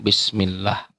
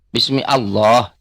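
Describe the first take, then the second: First: The two words are run together as one. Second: The two words are said separately. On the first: "ada hukum dalam membaca langsung Bismillah"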